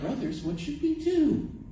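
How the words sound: It is said in a relaxed, casual way. The people are idly looking for something to do. The speaker calls it wrong. "You can't read it like, ... we have the rest of the afternoon to kill"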